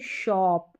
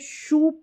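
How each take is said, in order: First: The vowel is a short o sound. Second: The vowel is a long oo sound. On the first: The speaker calls it right. "इसको पढ़ेंगे शॉप" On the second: The speaker calls it wrong. "ये शूप नहीं पढ़ेंगे"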